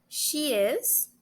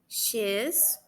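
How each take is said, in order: First: It is said as two separate full words. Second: It is said as one short contracted syllable. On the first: "juntando eles dois" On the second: "formas contraídas são as formas curtas"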